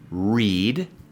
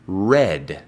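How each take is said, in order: First: The vowel is long, rhyming with bead. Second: The vowel is short, rhyming with bed. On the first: It is the present tense. "En presente" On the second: It is the past tense. "En pasado, red, como el color"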